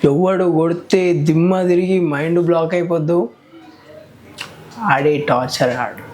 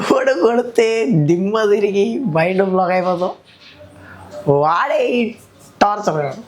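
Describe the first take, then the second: First: The line is spoken in an angry tone. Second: The line is spoken while laughing. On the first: "కోపం లేపు ఇప్పుడు" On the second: "నవ్వుకుంటే"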